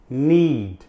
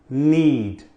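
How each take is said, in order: No difference in how they are said.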